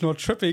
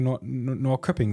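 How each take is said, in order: First: The middle consonant is a soft sh sound. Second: The middle consonant is a hard k sound. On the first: It imitates the original local pronunciation of the name. "jetzt sagen wir so selbstverständlich Nordschöpping" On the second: It is the plain, Germanized way of saying the name. "eigentlich muss man ja Nordköpping sagen"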